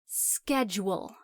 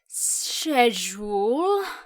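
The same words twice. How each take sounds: First: It is said with an American pronunciation. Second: It is said with a British pronunciation. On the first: The speaker calls it right. "It's schedule" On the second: The speaker calls it wrong. "like you've been drinking all night and you're slurring your words"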